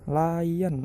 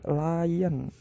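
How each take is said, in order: The two takes are said the same way.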